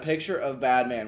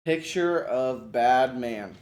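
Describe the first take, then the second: First: Said in the usual way. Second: "Picture of bad man" said very slowly, each word spaced out; slow modeling voice. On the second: Shown as a demonstration. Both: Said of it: "this would kinda be a modeling thing".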